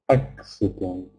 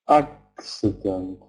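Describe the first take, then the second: The two takes are said the same way.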